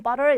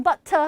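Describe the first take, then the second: First: "butter" said the American way, t flapped to a d sound; American pronunciation. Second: Butter with a crisp British t; "butter" said the British way, with a clear t; British pronunciation. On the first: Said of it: "미국 사람들은 butter 이랍니다". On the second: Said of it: "영국 사람들은 butter 하고 발음하고요". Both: Shown as a demonstration.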